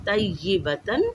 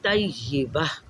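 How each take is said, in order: First: The word ends with a 'tan' sound. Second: The word ends with a soft 'h' sound. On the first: The reading continues without stopping. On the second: The reading stops at this word.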